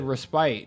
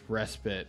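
First: The last syllable has a long i sound. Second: The last syllable has a short i sound. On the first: The speaker calls it wrong. "I've always said respite" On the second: The speaker calls it right. "pronunciation is with a short I, not a long"

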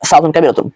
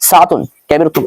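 First: The phrase is spoken at a faster pace. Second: The phrase is spoken at a slower pace. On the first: "এরকম স্পিড বাড়াবেন।" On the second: "এরকম স্পিডে বলবেন।"

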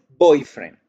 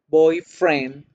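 First: The stress is on the first part, boy. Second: The stress is on the second part, friend. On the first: A romantic partner. "hago el acento en boy" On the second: Just a friend who is a boy. "estoy haciéndole la fuerza o el acento a la palabra friend"

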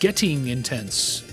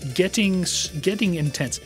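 First: The word getting is pronounced smoothly. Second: The word getting is pronounced awkwardly.

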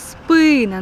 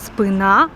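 First: The stress is on the first syllable. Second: The stress is on the second syllable. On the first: The speaker calls it right. "наголос на и" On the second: The speaker calls it wrong. "правильний наголос не спина"

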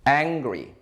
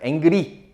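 First: The word is said with an R sound. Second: The word is said without an R sound. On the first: The speaker calls it right. "알 발음이 있어요" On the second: The speaker calls it wrong. "angry 아니에요"

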